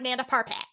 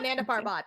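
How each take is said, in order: First: It is said in an angry, irritated way. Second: It is said in a calm, ordinary way. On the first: "when I'm pissed, it's like Nanda Parpat" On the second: "I call it Nanda Parbat"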